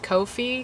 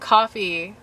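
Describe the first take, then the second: First: It starts with 'koh', like 'go'. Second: It sounds like the drink coffee. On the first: "supposed to be pronounced Ko-fi because it's K O F I" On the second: "I call it coffee"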